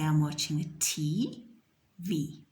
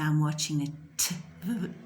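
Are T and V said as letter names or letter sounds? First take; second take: letter names; letter sounds. First: T and V are said as letter names. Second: T and V are said as letter sounds. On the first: The speaker calls it right. "We say I'm watching a T V" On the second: The speaker calls it wrong. "We don't say I'm watching a t v"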